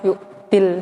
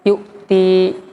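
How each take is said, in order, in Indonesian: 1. Vokal akhirnya pendek, tersambung ke kata berikutnya. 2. Vokal akhirnya panjang, karena kata berakhir di situ. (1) "dihapus dua ya-nya tadi kada dibaca ya-nya" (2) "pada kata yu'tinya tetap dibaca ya-nya"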